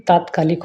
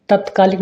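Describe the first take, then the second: First: तात्कालिक with a long first aa; correct long vowel. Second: तत्कालिक with a short first a; wrong vowel length. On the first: Teacher corrects students, long first vowel. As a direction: lengthen taat in तात्कालिक. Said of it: "होता है". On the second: Teacher shows students the mistake, short first vowel. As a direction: keep tat short in तत्कालिक. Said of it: "नहीं". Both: Shown as a demonstration.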